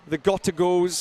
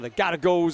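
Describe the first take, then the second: First: It is said in a non-American accent. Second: It is said in an American accent.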